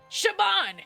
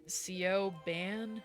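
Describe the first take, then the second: First: The name begins with a sh sound. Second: The name begins with a plain s sound. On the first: It is the name's real pronunciation. The speaker calls it right. "It's pronounced Shaban!" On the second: It is read the way it looks. The speaker calls it wrong. "let me pronounce it the way that he's probably pronouncing it"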